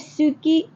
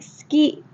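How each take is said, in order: First: The u vowel after s is fully pronounced. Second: The u vowel after s is dropped. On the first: The speaker calls it wrong. "We don't usually say suki" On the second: The speaker calls it right. "We take that U out"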